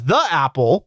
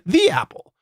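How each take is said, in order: First: 'The' is said with a short vowel. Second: 'The' is said with a long vowel. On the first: The speaker calls it wrong. "we would write it as" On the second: The speaker calls it right. "we would say"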